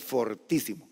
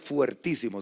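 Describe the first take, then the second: First: The first syllable has a plain 'o' vowel. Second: The first syllable has the diphthong 'ue'. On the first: The speaker calls it right. "se dice fortísimo" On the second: The speaker calls it wrong. "nunca diga fuertísimo"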